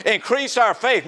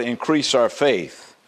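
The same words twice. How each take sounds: First: Higher-pitched, incredulous sarcasm; sarcastic. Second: Said in the usual way. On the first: Acted. Apostles mockingly asking the Lord for more faith, sarcastic. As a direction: throw it out high, as a sarcastic demand. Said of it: "they're being very sarcastic".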